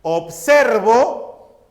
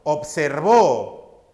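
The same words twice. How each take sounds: First: "Observo" stressed on SER, drawn out; slow "Observo" with the force on the middle syllable; higher, punched SER in "Observo". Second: "observó" stressed on the final VÓ; slow "observó" landing hard on the last syllable. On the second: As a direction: push the force onto the end of "observó". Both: Shown as a demonstration. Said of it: "El acento señala a la mayor fuerza de voz".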